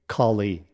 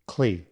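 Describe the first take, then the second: First: A vowel is sounded between k and l. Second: No vowel is sounded between k and l. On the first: The speaker calls it wrong. "Don't say Kali" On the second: The speaker calls it right. "drop the A in Cali"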